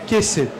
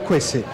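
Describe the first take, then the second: First: The word starts with a plain K sound. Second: The word starts with a KW sound. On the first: The speaker calls it wrong. "A gente leria Quese" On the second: The speaker calls it right. "a gente chama de K W. É o... De fato, é o Quese"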